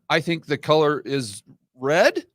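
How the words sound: The voice rises at the end like a question. It shows low confidence in the statement. The speaker calls it wrong. "making it sound like a question"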